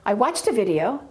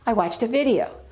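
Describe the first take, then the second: First: The pitch stays level across all the words. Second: The last word video has a higher pitch.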